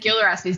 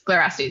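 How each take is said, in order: First: The name begins with the sounds 'Gil'. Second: The name begins with the sounds 'Gli'. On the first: The speaker calls it wrong. "I said Glorastes, didn't I? G-I-L" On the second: The speaker calls it right. "But I it's G-L-I"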